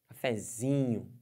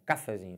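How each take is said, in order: First: The stress is on the third syllable, zi. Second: The stress is on the first syllable, ca. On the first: The speaker calls it right. "a sílaba tônica da palavra cafezinho é o Z" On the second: The speaker calls it wrong. "Bota um acento no A... fica até estranho"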